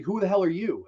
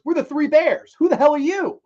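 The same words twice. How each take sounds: First: Raised-pitch demand from a puzzled stranger; retold challenge. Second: High, loud comeback in mock indignation; instant retort. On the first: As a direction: act out a mildly indignant question. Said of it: "He's like". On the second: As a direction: fire the challenge straight back, acting it out. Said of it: "John Candy, without missing a beat, goes".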